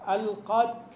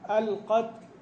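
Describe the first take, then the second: First: The t is released with only a light breath. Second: The t is released with only a light breath.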